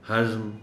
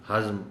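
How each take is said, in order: Both takes have the same delivery.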